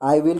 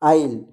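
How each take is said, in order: First: It is said as two full words. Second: It is contracted into one syllable. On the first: "आई विल की जगह" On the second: "आप इस्तेमाल कर सकते हैं आइल"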